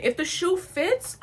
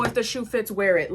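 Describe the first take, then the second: First: High, slow, challenging repeat; indignant echo. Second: Tossed-off retold saying; quoted saying. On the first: Retold or imitated. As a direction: throw it back slowly, pitched way up. Throws saying back as indignant threat. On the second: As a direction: quote it lightly in passing. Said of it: "it was not one of those".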